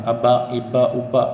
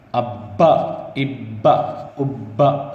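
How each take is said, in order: First: ابا read the wrong way; wrong recitation. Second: ابا with the ب stopped hard and doubled. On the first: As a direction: show the mistaken ابا. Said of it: "یہ جو ہے غلط ہے". (غلط طریقے سے ابا) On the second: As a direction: snap the shaddah on ابا. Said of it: "سختی سے پڑھنا". (سختی سے ابا) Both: Shown as a demonstration.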